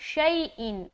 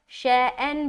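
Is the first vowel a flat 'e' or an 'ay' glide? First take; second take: ay glide; flat e. First: The first vowel glides from 'a' toward 'ee'. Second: The first vowel is a flat 'e' sound. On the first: The speaker calls it right. "मारूफ पढ़ना है" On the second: The speaker calls it wrong. "शैन भी गलत है ... मजहूल है"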